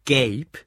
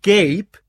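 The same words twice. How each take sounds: First: Loud, incredulous name as a question. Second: Very loud, high incredulous shout; shouted, even louder. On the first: Husband challenging Ruth about his rival, loud. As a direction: ask the name sharply, holding back a full shout. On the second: Husband repeating his rival's name at Ruth, shouting. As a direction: yell the name in outraged disbelief. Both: A narrator's reading. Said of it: "wiederholte er dann noch lauter".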